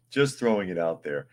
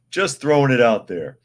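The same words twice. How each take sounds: First: Said in the usual way. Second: First take punched up, louder and higher on "Just throwing it out there"; emphatic. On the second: Acted. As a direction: lean hard on "Just" and let "Just throwing it out there" fall. Repeats phrase, first take emphatic.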